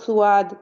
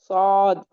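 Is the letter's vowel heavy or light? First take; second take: light; heavy. First: The letter is said light with a thin vowel. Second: The letter is said heavy with a full vowel. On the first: The speaker calls it wrong. "तो ये सुआद नहीं है" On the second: The speaker calls it right. "पूरी टंग उठाएंगे और ऊपर को लगाएंगे"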